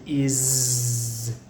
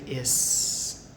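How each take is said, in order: First: The word ends with a buzzing z sound. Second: The word ends with a hissing s sound. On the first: The speaker calls it right. "the S actually sounds like a Z" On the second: The speaker calls it wrong. "we don't say is"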